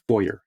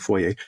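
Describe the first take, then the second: First: It uses the pronunciation more common in the US. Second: It uses the speaker's own Canadian pronunciation. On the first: This is how others commonly say it. The speaker calls it wrong. "in the U S it's more common as foyer" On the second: This is how the speaker says it. The speaker calls it right. "what I say foyer"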